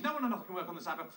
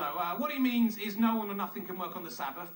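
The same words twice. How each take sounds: First: Rattled off quickly, no fuss; brisk and succinct. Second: Said in the usual way. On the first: Shown as a demonstration. Comic rewriting God's rule, said fast and succinct. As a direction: fire it off fast as one tidy rule. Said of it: "it's clear what he means". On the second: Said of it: "It's clear what he means".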